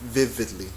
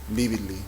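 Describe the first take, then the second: First: It starts with a lip-and-teeth 'v' sound. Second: It starts with a two-lip 'b'-like sound. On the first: The speaker calls it right. "Si formas la F y le echas voz" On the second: The speaker calls it wrong. "siempre queremos decir vividly"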